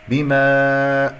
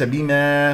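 First: بما with a long, clean open aa; drawn-out recited بما; correct alif sound. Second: بما with the long aa distorted; faulty drawn-out بما; wrong alif sound. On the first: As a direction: hold the final alif of بما. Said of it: "بما وليس بما". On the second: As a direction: mispronounce the held alif of بما. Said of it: "انتبه إلى صوت الألفات". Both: Shown as a demonstration.

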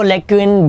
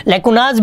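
First: लैक्यून said slowly and lower as the second plural option; plural form lacuna. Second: लैक्यूनाज as a plain demo form, ending in a clear z sound; plural form lacunae. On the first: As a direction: draw out लैक्यून slowly, without the z ending. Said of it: "लैक्यून भी कर लो". (दूसरा रूप लैक्यून, धीरे और नीचे स्वर में) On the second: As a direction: say लैक्यूनाज as the first plural option. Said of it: "लैक्यूनाज भी कर लो". (बहुवचन लैक्यूनाज, साफ़ ज़ के साथ) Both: Shown as a demonstration.

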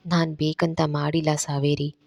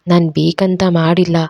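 First: ನಾನ್ leaned on, softer gentle apology; quiet tender denial, holding her hands. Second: ನಾನ್ stressed in a mildly pained pleading tone; a touch of hurt begging; pained plea. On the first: Randhir gently telling Saveri he didn't mean it, soft. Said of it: "ಮೃದುವಾಗಿ ಕೇಳ್ತಾನೆ". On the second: Randhir kneeling, begging crying Saveri, mildly pained. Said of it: "ನೋವಿನಿಂದ ಬೇಡ್ಕೊಳ್ತಾನೆ". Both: A narrator's reading.

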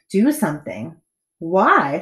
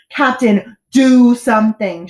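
First: Smiling, unconcerned. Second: Loud, urgent, drawn-out plea; shouted. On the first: Captain puzzled by boy's alarm, smiling calmly. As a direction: ask it with an untroubled smile. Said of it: "smiled the captain". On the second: Boy urges captain to act, shouting. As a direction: shout for action. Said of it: "shouted Bartholomew". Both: A narrator's reading.

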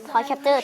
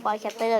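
First: "Capture" ending in a ch sound, cap-cher; correct pronunciation. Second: "Capture" ending in a t sound, cap-ter; rejected pronunciation. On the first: Vlogger confirms the right name, cap-cher pronunciation. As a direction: say "Capture" with ch, not t. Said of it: "ถูกแล้ว". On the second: Vlogger dismisses the old name, cap-ter pronunciation. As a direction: say "Capture" with t, not ch. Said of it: "ไม่ต้องมา". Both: Shown as a demonstration.

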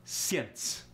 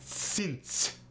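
First: "Since" with a y-glide, Russian "syence"; thicker Russian accent. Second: Higher-pitched "Since", light Russian accent; "Since" with little glide, Russian-accented; lighter Russian accent. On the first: the speaker showing accent thickness, thicker Russian accent. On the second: the speaker showing accent thickness, lighter Russian accent. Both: Shown as a demonstration. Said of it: "It depends on the thickness".

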